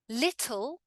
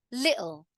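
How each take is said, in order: First: "Little" with a crisp T; careful "lit-tul"; full T. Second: "little" as "li'ul"; throat catch in place of T in "little"; glottal T. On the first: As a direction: sound the T fully in "Little". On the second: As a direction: cut the T in "little". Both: Shown as a demonstration. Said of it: "in the two different ways".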